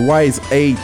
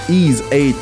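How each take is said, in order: First: The name begins with a W sound, like wise. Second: The name begins with a vowel, like ease. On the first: The speaker calls it wrong. "J'ai jamais su comment le prononcer, c'est ça, Wise?" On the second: The speaker calls it right. "C'est Ease, en fait, qu'on devrait dire"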